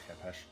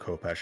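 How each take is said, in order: First: It is said the supposed ancient Egyptian way. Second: It is said the usual English way. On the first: This is the name used in ancient Egypt. "apparently the proper pronunciation is hepesh" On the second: This is the name used in English. "it's called khopesh in English"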